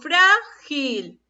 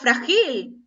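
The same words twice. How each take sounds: First: The stress is on the first syllable. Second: The stress is on the last syllable. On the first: The speaker calls it right. "yo digo frágil" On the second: The speaker calls it wrong. "Yo no digo frágil"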